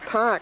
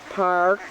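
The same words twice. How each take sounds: First: The R sound after the vowel is dropped. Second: The R sound after the vowel is pronounced. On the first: "There's no R in my vocabulary. I say park" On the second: "I don't say park"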